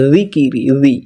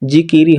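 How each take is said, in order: First: "জিকিরি" as dhi-ki-ri; "জি" lisped softly, not a hard j; soft opening sound. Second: "জিকিরি" with a hard English j; "জিকিরি" with the mistaken j opening; wrong hard sound. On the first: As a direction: soften the first sound of "জিকিরি" to a th-like z. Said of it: "দাল নরম". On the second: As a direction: say "জিকিরি" as jee-kee-ree. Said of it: "জিকিরি হবে না". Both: Shown as a demonstration.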